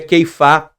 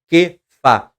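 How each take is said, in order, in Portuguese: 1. A primeira sílaba tem o ditongo ei. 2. A primeira sílaba tem a vogal simples e. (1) "No hebraico moderno, há um iudzinho, se pronuncia Keifá" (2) "mas também pode ser Kefá"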